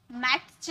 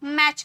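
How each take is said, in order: First: मैच as "mat-ch", t pronounced before ch; sounded t, wrong. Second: मैच as "mach", no t before ch; silent t. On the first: Teacher shows what we don't say, T sounded. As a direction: say मैच slowly with a separate T before CH. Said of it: "मैच नहीं कहते हैं". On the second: Teacher models how we say it, silent T. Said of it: "मैच कहते हैं". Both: Shown as a demonstration.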